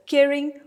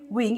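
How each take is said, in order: First: Caring said high and loud on its first syllable; caring stressed. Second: Said in the usual way. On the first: Shown as a demonstration. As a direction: hit the start of caring, higher and louder. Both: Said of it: "one is stressed".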